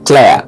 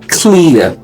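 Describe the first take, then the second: First: The vowel sounds like the one in 'air'. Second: The vowel sounds like the one in 'ear'. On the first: The speaker calls it wrong. "In Nigeria, we call it Claire" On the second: The speaker calls it right. "So it's not Claire. It's clear"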